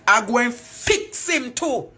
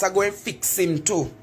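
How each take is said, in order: First: Slower, weight on him; I go and fix him too, slow with him stressed; slow menacing repeat. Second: Said in the usual way. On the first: Real, not acted. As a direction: drag the threat out deliberately. Repeats threat for emphasis.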